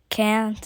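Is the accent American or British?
American. It is said with an American accent. This is how the classmates say it. "Everyone writes cookies and say like can't"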